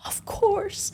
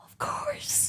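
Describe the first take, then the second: First: Eager of course. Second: Breathy, high, soft, starstruck "Of course"; airy and very high, almost swooning. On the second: Flight attendant answers Chris Hemsworth, breathy and starstruck. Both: Retold or imitated. Serving the celebrity eagerly.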